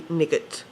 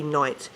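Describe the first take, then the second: First: "nigget" as NIG-et, g sounded; phonetic misreading. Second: "night" as nite, silent gh; ordinary "night" with long I; usual night. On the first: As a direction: read the spelling literally, "nigget" in two syllables. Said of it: "it should be nigget". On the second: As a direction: say "night" normally, rhyming with kite. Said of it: "it shouldn't be night". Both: Shown as a demonstration.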